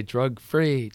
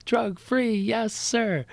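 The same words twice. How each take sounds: First: Said in the usual way. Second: Chanted, high, restrained call-back; imitated pupils' chant. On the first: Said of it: "how you still say". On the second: Mom recalling the class's drill to teacher, high imitated chant. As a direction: echo the kids' chant high, without shouting. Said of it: "how you still say, 'Drug free".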